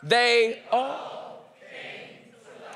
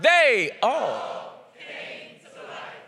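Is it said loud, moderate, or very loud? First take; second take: loud; very loud. First: It is said louder than before. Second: It is said very loudly.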